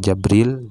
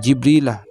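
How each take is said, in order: First: The first syllable has the vowel a. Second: The first syllable has the vowel i. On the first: "wa fathiha dan fathah jimnya, jadi bisa dibaca Jabril" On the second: "bikasil jimi dengan kasrah jimnya"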